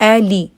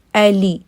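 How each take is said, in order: Both takes have the same delivery.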